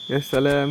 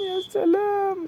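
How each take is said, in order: First: Said in the usual way. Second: "يا سلام" swooped very high and slow, then falling; mock-marvel with a soaring squeak on "سلام"; sarcastic falsetto. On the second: Real, not acted. Sarcastic reaction to conceded goal. ("يا سلام" بصوت رفيع جدا وممطوط بسخرية)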